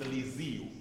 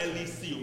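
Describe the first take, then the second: First: The S is said as a buzzing Z sound. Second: The S is said as a hissed S sound. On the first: The speaker calls it right. "It's a Z sound there" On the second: The speaker calls it wrong. "It's not Elysium"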